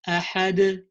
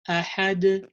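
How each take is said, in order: The two takes are said the same way.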